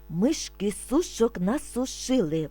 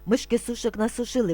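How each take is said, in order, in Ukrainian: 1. Вимовляється помірно швидше. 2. Вимовляється дуже швидко. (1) "А тепер трошки швидше" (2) "А тепер дуже швидко"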